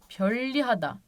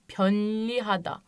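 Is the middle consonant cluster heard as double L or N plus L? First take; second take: double L; N plus L. First: The middle sounds like a double L. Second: The middle sounds like N followed by L. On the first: The speaker calls it right. "Pönlihada değil de pöllihada" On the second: The speaker calls it wrong. "Bu kuralı bulmasaydık böyle okuyacaktık değil mi?"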